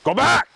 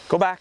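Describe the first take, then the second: First: The command is said loudly. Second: The command is said softly. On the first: There is no room left to escalate. The speaker calls it wrong. "If you start out with, ... You can't get any louder" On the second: There is room left to escalate. The speaker calls it right. "I want to be as soft as possible"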